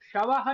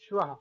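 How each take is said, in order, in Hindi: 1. एक पूरा स्वर श और व को अलग करता है। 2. श और व बिना स्वर के हल्के से जुड़ जाते हैं। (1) "शवः नहीं पढ़ेंगे" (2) "श्वः हल्का सा"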